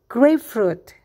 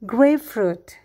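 No difference in how they are said.

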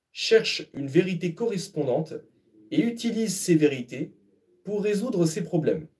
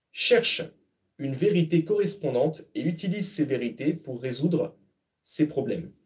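The two takes are said the same way.

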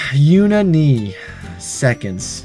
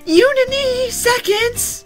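First: It is said in a normal voice. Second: It is said in a childlike baby voice.

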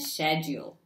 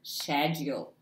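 First: It is said the British way. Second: It is said the British way.

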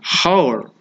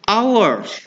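First: The word begins with an audible h sound. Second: The word begins directly with a vowel sound. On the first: The speaker calls it wrong. "ini bukan hour" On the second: The speaker calls it right. "tetapi hour"

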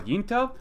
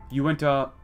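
First: The name begins with a short 'yin' sound. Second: The name begins with a 'you-in' sound. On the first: This is the speaker's usual pronunciation. "what I normally would call Yinta" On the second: This is the pronunciation a commenter calls correct. "Apparently, it should be Uinta"

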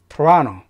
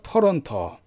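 First: The middle syllable is strongly stressed. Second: All syllables get even weight, no strong stress. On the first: The speaker calls it right. "라의 강세가 들어가면서 토라노라고 발음을 해줘요" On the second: The speaker calls it wrong. "실제 캐나다인들이나 미국인들은 토론토 그렇게 말하지 않죠"

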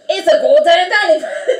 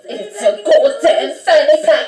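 First: It is spoken in an attempted Australian accent. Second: It is spoken in an attempted British accent. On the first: "How about Australian? ... That is not Australian" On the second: "I'm gonna do like a British accent"

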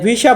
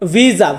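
First: It is pronounced with Bengali sounds. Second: It is pronounced with Italian sounds. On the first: "মানে ভিসা বলি বাংলাদেশে" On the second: "এটাকে ইতালিতে আমরা বলবো ভিসা"

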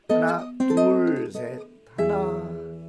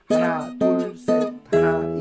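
First: The second count, 둘, gets a strong accent. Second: All four counts get equal, even stress.

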